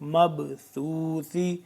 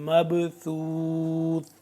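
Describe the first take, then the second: First: The word ends with a short 'ee' vowel. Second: The word ends on a bare consonant. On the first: The reading continues without stopping. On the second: The reader stops at this word.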